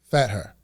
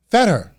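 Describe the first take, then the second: First: Said in the usual way. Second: Imitating an irritated dad, higher pitched; retold touch of temper, pitch dropping at the end; angry dad. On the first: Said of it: "he's, like, one of those angry people". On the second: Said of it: "like, one of those angry people".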